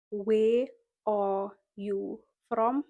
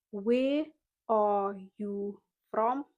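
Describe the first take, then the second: No difference in how they are said.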